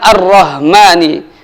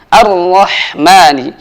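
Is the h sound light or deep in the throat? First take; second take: light; deep. First: The h sound is light, not from the throat. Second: The h sound comes from mid-throat. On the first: The speaker calls it wrong. "bukan ar-Rahmani" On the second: The speaker calls it right. "dengan huruf ha dari tengah tenggorokan"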